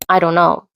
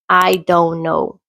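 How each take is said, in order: First: The words are reduced and run together. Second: Every word is pronounced fully and separately. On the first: "But instead, it sounds like" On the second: "Or maybe you heard"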